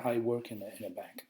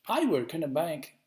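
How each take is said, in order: First: No word is singled out for stress. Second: The word I is stressed.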